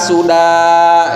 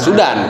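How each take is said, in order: First: The word ends in a long open vowel. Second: The word ends with an added n sound. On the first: The speaker calls it right. "harus dibaca panjang" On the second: The speaker calls it wrong. "jangan sudan"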